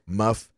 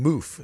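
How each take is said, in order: First: The vowel sounds like 'uh' in 'cup'. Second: The vowel sounds like 'oo' in 'boot'. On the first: This follows the spelling. "it's spelled like muff eletta" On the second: This is how local people said it. "people were saying moof, like so"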